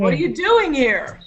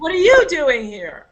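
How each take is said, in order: First: The stress is on doing. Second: The stress is on you.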